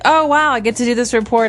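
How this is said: It sounds excited and enthusiastic.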